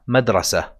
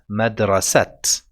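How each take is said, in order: First: The word ends on a plain open vowel. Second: The word ends with a clear t sound. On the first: "we don't really emphasize the sound of a ha at the end. It will just sound like a fatha" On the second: "you might have tried to pronounce it as madrasat"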